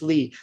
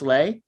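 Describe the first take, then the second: First: The name is said with an 'ee' vowel. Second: The name is said with an 'ay' vowel. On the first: The speaker calls it right. "It's Lee" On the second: The speaker calls it wrong. "I know it looks like it's pronounced Lay. It's not"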